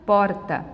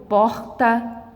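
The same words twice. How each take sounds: First: "porta" com um dos sotaques do R; R regional. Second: "porta" with a different regional R; outro R regional. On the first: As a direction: say "porta" as one regional R variant. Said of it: "Tem lugares que o R se pronuncia". ("porta" com R de uma região do Brasil) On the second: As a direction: say "porta" with the other local R. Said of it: "o R se pronuncia". ("porta" com o R de outra região) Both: Shown as a demonstration.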